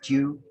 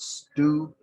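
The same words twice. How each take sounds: First: The word has a Creole, British-like pronunciation. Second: The word has the common American pronunciation. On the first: The speaker calls it right. "which is the Creole pronunciation, which is closer to the British pronunciation" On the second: The speaker calls it wrong. "the way most Americans pronounce the word these days"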